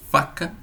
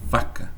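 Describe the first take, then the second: First: Faca with an airy voiceless f; voiceless f demo. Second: Vaca, lower and softer, v buzzing; voiced v demo. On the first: Teacher contrasts faca with vaca. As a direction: hiss the f in Faca. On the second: Teacher contrasts vaca with faca. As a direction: hum through the v in vaca. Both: Shown as a demonstration. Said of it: "ponto de articulação".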